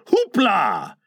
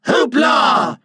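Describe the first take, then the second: First: Light, merry "Hoopla" from one voice. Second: Loud, high group cheer; chorus shout. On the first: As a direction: cry it gaily without shouting. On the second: Boys dancing after Mr Darling, chorus shout. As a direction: shout it together, high and gleeful. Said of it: "and they all cried". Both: A narrator's reading.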